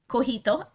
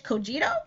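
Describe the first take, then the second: First: The name is said with a Spanish pronunciation. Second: The name is said with an English pronunciation. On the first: "In Spanish it's cojito" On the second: "and in English cogito"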